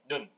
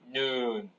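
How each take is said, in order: First: The vowel is said short. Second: The vowel is said long. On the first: It means the eye. "사람의 눈은 발음을 짧게 하셔야 돼요" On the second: It means snow. "하늘에서 내리는 눈은 눈"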